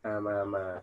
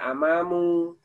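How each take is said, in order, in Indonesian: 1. Kata ini diakhiri dengan vokal a. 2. Kata ini diakhiri dengan vokal u. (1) "Tapi dibaca apa? Amama. Kenapa? Nasab" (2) "tidak dibaca amamu"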